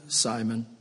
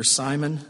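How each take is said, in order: First: Repeating the name softer and lower, gently; second Simon hushed and tender. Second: Said in the usual way. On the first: Acted. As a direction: call him like his mother would, soft. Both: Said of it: "Moment of tenderness".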